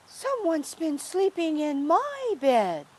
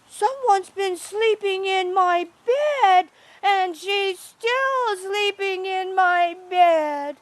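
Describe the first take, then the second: First: Higher-pitched Mama Bear complaint. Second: Put-on high, loud baby bear wail; wee baby bear. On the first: Mama Bear finding her bed slept in, higher character voice. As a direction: voice an indignant storybook mother bear, higher. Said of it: "Mama Bear went and lay down". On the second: Baby bear finding someone in his bed, high loud little voice. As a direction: squeal it out like an upset little bear cub. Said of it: "wee little baby bear". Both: A narrator's reading.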